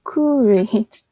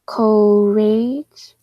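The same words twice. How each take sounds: First: Courage with an "oo", like COO-rij; trial sounding-out. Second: Courage with a long "oh", like COH-RAYJ; trial sounding-out. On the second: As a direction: sound out courage as "coh-rage", rising at the end. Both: Shown as a demonstration. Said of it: "What was another sound?".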